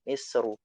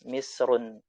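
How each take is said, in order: First: The word ends on a plain u vowel. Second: The word ends with an added n sound. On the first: The speaker calls it right. "bacanya Misru" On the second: The speaker calls it wrong. "Tidak boleh dibaca Misrun"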